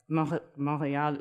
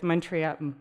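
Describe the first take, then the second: First: The name is said with a French accent. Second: The name is said with an English accent.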